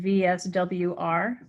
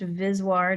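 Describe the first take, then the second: First: It is spelled out as separate letters. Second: It is said as a single word. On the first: The speaker calls it right. "abbreviated V S W R" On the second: The speaker calls it wrong. "sometimes pronounced V S W R despite my strenuous objections. I think it sounds stupid"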